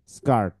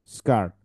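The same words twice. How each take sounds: The two takes are said the same way.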